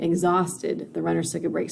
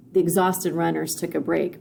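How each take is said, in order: First: "exhausted" set apart up front with a pause after it; emphasis on exhausted. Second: Said in the usual way. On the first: Shown as a demonstration. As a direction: lead with "exhausted", then pause. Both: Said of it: "So it puts that emphasis more on exhausted".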